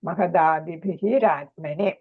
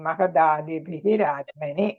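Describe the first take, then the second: No difference in how they are said.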